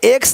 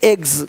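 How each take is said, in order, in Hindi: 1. शब्द का अंत अघोष ks ध्वनि से होता है। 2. शब्द का अंत घोष gz ध्वनि से होता है।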